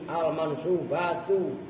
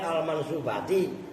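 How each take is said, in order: First: The word ends with a 'u' vowel. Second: The word ends with an 'i' vowel. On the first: The speaker calls it right. "ganti al-mansubatu" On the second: The speaker calls it wrong. "Kan kalian al-mansubati. Salah"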